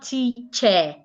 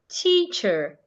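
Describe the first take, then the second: First: The middle consonant is not a ch sound. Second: The middle consonant is a ch sound. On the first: The speaker calls it wrong. "It is not teacher" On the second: The speaker calls it right.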